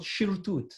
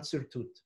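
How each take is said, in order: First: "shirtut" starting with a SH sound; SH pronunciation. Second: "sirtut" starting with a plain S; S pronunciation. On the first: Teacher passing on his master's pronunciation, "shirtut" with SH. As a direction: say "shirtut", SH as in ship. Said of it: "Hacham Ovadia used to call it shirtut". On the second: Teacher giving the form to avoid, "sirtut" with S. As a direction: say "sirtut", S as in sit. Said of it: "not sirtut". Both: Shown as a demonstration.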